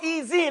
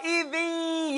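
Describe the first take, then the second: First: The middle consonant is a buzzing z sound. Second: The middle consonant is a soft th sound. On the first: The speaker calls it wrong. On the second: The speaker calls it right.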